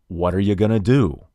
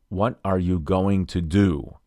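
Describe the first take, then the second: First: The words are reduced and run together. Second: Each word is said fully and separately. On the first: "a native speaker might say" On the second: "instead of saying"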